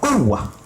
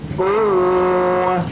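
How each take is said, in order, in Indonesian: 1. Vokalnya dibaca pendek dengan sedikit tekanan. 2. Vokalnya dibaca panjang. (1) "tidak dengan mat, tetapi kuwah" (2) "tidak boleh kuwah"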